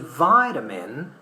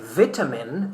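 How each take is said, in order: First: It is said with an American accent. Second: It is said with a British accent.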